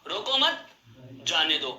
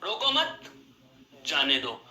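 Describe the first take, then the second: First: There is a pause after the second word. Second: There is a pause after the second word.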